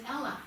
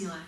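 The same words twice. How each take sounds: First: Ella with a short e, as in "bell"; the common misreading, "Ella"; mispronounced name Ella. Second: Ela with a long ee, EE-la; long first vowel in "Ela"; correctly pronounced name Ela. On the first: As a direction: say Ella with an EL at the front. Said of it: "a lot of people pronounce it". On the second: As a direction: say Ela starting like "eel". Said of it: "a lot of people pronounce it Ella". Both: Shown as a demonstration.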